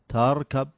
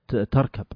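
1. الحرف الأول منفصل عن بقية الكلمة. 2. تُنطق الكلمة بسلاسة كوحدة واحدة. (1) "ما قلت" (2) "لا كلمة واحدة"

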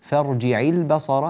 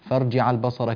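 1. العين تحمل كسرة كاملة وواضحة. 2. حركة العين تميل إلى الانفتاح نحو الفتحة. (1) "اكسر العين كسرا كاملا" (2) "كادت أن تنفتح منك"

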